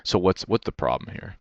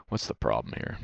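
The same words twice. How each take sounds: First: Said in the usual way. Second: Much lower and softer, muttered under breath; muttered to himself. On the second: Real, not acted. Reviewing his loss, he mutters the question to himself. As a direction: drop it low and mutter it to yourself.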